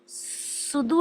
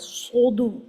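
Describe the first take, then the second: First: The first s sound is light and thin. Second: The first s sound is heavy and deep. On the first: The speaker calls it wrong. "वो सीन हो जाएगा" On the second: The speaker calls it right. "हैवी sound के साथ"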